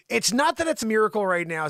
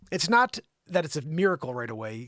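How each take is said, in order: First: Louder reread. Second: Said in the usual way. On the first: Shown as a demonstration. Newsreader rereads the quote, louder. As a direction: reread louder and higher after the name fix. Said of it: "said Gregory Courtine". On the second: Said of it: "said Rigial Courtine".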